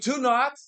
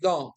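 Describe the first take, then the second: First: It is said as two separate full words. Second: It is said as one contracted word. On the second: "Forma contraída de do not é igual don't"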